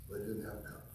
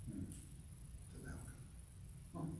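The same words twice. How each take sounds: First: Said in the usual way. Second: Whispered very slowly, much softer; hushed whisper. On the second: Acted. Preacher repeating the point to the congregation in a slow whisper. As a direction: breathe it out slowly, letting it sink in.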